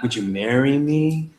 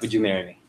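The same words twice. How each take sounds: First: The pitch rises at the end. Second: The pitch falls at the end. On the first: The asker sounds unsure. The speaker calls it wrong. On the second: The asker sounds confident. The speaker calls it right. "So down"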